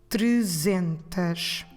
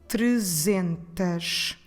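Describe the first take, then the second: No difference in how they are said.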